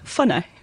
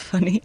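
First: The name is said with an affected, aristocratic pronunciation. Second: The name is said in a plain, everyday way. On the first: "Ça, c'est pour faire aristocrate" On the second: "Moi, je le prononce Fanny"

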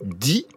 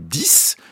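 First: The word ends with no final consonant. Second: The word ends in an s sound. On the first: The number comes before a consonant-initial word. "si je veux dire 10 000" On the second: The number stands alone at the end. "si je veux dire j'en veux 10"

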